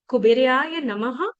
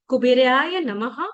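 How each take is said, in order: No difference in how they are said.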